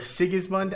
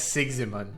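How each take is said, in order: First: The s and i sounds are in normal order. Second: The s and i sounds are swapped around. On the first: The speaker calls it right. "I realize I've been pronouncing Sigismund" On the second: The speaker calls it wrong. "because I switched the I and the S there"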